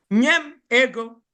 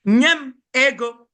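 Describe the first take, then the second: First: Said in the usual way. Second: "Nye m ego" said louder and pushed; firm, raised request for money; louder demand. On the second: Shown as a demonstration.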